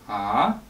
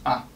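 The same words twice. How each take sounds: First: The pitch rises upward like a question. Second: The syllable is short, light and lazy. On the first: "like asking a question" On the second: "lazy, short"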